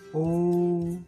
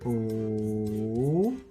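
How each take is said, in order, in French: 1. Il se prononce avec le premier ton du mandarin. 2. Il se prononce avec le troisième ton du mandarin.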